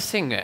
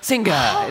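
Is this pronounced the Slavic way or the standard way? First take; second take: standard; Slavic. First: The g is pronounced the standard way. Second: The g is pronounced the Slavic way. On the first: "instead of singer" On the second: "they'll turn right around and say singer"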